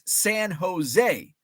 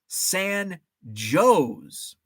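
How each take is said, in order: First: It is said the California way. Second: It is said the local Illinois way. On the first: It refers to the California city. "in California, there's San Jose" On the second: It refers to the Illinois town. "but in Illinois, pronounced San Jose"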